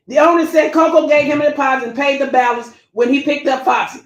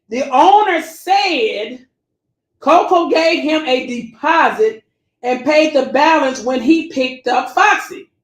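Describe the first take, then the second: First: Said in the usual way. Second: Slow, deliberate reading; slow read-aloud for the audience; read real slow. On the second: Shown as a demonstration. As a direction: drag each word out so they hear it. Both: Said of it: "I'm gonna read it real slow".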